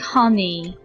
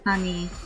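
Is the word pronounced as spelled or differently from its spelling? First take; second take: as spelled; differently. First: The word is pronounced just as it is spelled. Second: The word is pronounced differently from its spelling. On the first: The speaker calls it wrong. "I keep saying honey" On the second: The speaker calls it right. "instead of honey"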